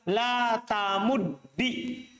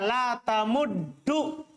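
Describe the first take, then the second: First: The word ends with an 'i' vowel. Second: The word ends with an 'u' vowel. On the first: "atau kasroh" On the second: "dengan doma"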